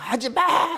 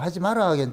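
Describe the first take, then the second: First: It is said loudly with a strong tone. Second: It is said quietly and calmly.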